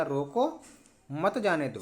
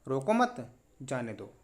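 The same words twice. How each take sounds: First: "रोको", a clear break, then "मत जाने दो" run together; pause after रोको. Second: Slow "रोको मत", a clear break, then "जाने दो"; pause after मत. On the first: Teacher shows the first meaning of the sentence, pausing after "रोको". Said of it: "जिससे इसका दो अर्थ निकलते, पहला". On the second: Teacher shows the second meaning of the sentence, pausing after "मत". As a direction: join "रोको मत" and pause before a lower "जाने दो". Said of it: "और दूसरा". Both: Shown as a demonstration.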